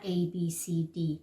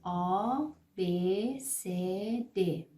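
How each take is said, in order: First: The letters are named with English vowel sounds. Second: The letters are named with German vowel sounds. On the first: The speaker calls it wrong. "این میشه انگلیسی" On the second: The speaker calls it right. "پس شد آ ب س د"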